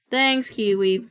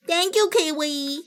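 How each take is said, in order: First: Said in the usual way. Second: High, slow, put-on cutesy voice; annoying voice. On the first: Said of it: "that was an annoying voice". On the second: Shown as a demonstration. Thanking Kiwi in a deliberately annoying voice. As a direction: stretch it out in a silly high voice. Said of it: "Sorry, that was an annoying voice".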